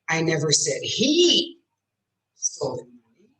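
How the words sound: The word "he" is stressed. A different person took it. "I said she did"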